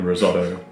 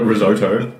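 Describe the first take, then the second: First: The word is said in a non-American way. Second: The word is said in an American way.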